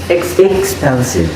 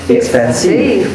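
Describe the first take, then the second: First: The stress is on the first syllable. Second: The stress is on the third syllable. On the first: "When I stress the first one" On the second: "when we stress the third one"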